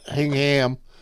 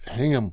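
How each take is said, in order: First: The ending is said fully, as written. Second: The ending is reduced and unstressed. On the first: The speaker calls it wrong. "not Hingham" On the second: The speaker calls it right. "It's Hingham"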